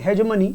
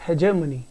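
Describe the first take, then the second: First: हेजेमनी with a j sound, not a g; correct pronunciation. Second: हेजेमनी with a soft j sound, he-je-mani; correct pronunciation. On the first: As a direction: say हेजेमनी as he-je-mani. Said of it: "की अगर हम बात करें pronunciation". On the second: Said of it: "इसकी जो pronunciation है पहले तो मैं इसे क्लियर कर दूं". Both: Shown as a demonstration.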